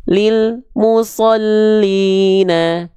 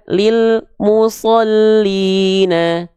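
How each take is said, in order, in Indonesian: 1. Ada jeda senyap setelah huruf l. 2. Ada jeda senyap setelah huruf l.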